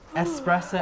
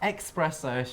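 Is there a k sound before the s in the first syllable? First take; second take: no; yes. First: The first syllable is said "es", without a k. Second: The first syllable is said "ex", with a k. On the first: The speaker calls it right. "people who pronounce shots of espresso" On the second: The speaker calls it wrong. "as espresso should be shot"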